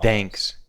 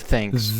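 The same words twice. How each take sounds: First: The first sound is close to a d. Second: The first sound is a clear th. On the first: The speaker calls it wrong. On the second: The speaker calls it right.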